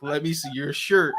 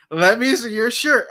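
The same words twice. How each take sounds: First: Said in the usual way. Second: A louder, pushier teacher demand; "Let me see your shirt" said louder, higher, leaning hard on "shirt"; insistent teacher. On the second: Retold or imitated. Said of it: "that aggressive tone that she".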